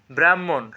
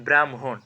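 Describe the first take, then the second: First: Said in the usual way. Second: ব্রাহ্মণ as "bram-hon"; correct pronunciation. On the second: Shown as a demonstration. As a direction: put m before h in ব্রাহ্মণ. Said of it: "এটা সঠিক উচ্চারণ কি?". (ব্রাহ্মণকে "ব্রাম্-হোন" উচ্চারণ)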